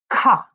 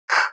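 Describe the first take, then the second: First: The k sound has a vowel added after it. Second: The k sound is said alone, without a vowel. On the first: The speaker calls it wrong. "distorting the initial sounds" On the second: The speaker calls it right. "I'm not distorting"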